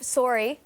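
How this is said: It is said with a Canadian accent. "which is Canadian"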